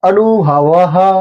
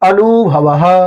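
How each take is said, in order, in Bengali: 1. প্রথম স্বরধ্বনিটি খোলা 'a'-এর মতো শোনায়। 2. প্রথম স্বরধ্বনিটি খোলা 'a'-এর মতো শোনায়।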